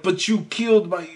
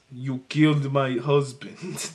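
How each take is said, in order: First: Said in the usual way. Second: Put-on slow, low Russian accent, half-hearted and a little lower; a lightly done Russian accent, drawn out slowly; Russian widow voice. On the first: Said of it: "no, wait, hold on". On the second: Co-host hams up Bond girl's grieving revenge line in a slow Russian accent. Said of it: "I need to get my Russian widow voice".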